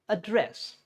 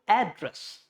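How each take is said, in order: First: The stress is on the second syllable. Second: The stress is on the first syllable. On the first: It is used as a verb. "If it is a verb, it's called address" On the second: It is used as a noun. "If it is a noun, it's, it's called address"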